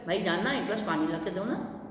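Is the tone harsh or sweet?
sweet. It is said in a sweet, affectionate tone.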